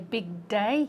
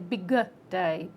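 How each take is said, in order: First: The two words join with no extra vowel. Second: An extra vowel sound comes between the words. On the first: The speaker calls it right. "you want to say big day" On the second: The speaker calls it wrong. "you could create an extra syllable"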